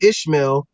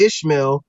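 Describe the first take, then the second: First: The name is said with an 'sh' sound. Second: The same.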